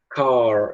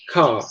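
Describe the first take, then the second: First: The final R sound is clearly pronounced. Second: It ends on the vowel with no R. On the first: "O americano tende a falar car, ele tende a puxar o R" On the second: "Ele para no A, entende? ... Ele não pronuncia o R"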